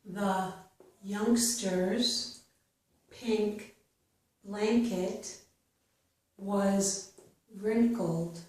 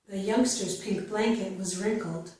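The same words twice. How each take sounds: First: The sentence is spoken slowly. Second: The sentence is spoken faster. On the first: "I will read each sentence slowly" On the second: "then I will read it a little bit faster"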